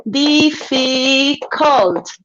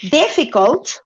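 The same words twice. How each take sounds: First: Difficult stretched out slowly, each syllable split apart: dif-fi-cult. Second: Said in the usual way. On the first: Shown as a demonstration. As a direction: spell out the three beats of Difficult slowly. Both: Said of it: "One, two, three syllables".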